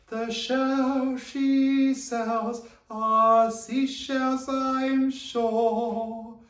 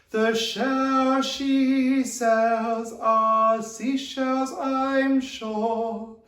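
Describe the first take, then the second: Both takes have the same delivery.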